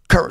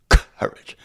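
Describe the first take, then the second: First: It is said in the speaker's normal voice. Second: It is said in a put-on cartoonish lion voice.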